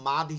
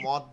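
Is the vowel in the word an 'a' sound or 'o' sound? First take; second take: a sound; o sound. First: The vowel is an open 'a' sound. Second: The vowel is a rounded 'o' sound. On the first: The speaker calls it right. "এটা আরবি শব্দ মাদ্দুন" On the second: The speaker calls it wrong. "অনেকে মদ বলেন, এটা একদম ভুল হবে"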